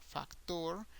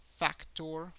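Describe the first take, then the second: First: "factor" as fac-TOR, rising at the end; Spanish "factor", last syllable stressed; Spanish pronunciation. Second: "factor" as FAC-tor, rising at the end; English "factor", first syllable stressed; English pronunciation. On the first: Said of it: "make an emphasis in the last syllable". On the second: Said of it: "an emphasis in English in the first syllable". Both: Shown as a demonstration.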